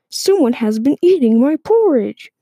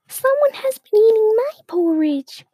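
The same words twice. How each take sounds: First: It is said in a big voice. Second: It is said in a tiny voice.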